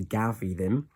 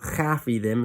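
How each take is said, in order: First: The first word begins with a voiced G sound. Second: The first word begins with a rough CH sound. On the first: The speaker calls it wrong. "as opposed to" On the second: The speaker calls it right. "when you're talking in your negative, you use your aspect mutations"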